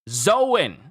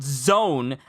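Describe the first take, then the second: First: It is said not rhyming with Joan. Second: It is said like zone, rhyming with Joan. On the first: The speaker calls it right. "It's Zoan" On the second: The speaker calls it wrong. "It's not zone as if you're spelling it like the name Joan"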